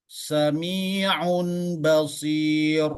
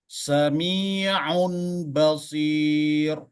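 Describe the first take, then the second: Both takes have the same delivery.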